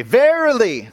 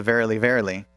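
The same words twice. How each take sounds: First: Verily shouted much higher and louder, falling at the end; bold proclaiming verily. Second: Said in the usual way. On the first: Shown as a demonstration. Preacher showing the church how to say Verily, bold shout. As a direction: belt out Verily like a herald. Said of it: "You will say". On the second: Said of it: "no longer read in a monotone British accent".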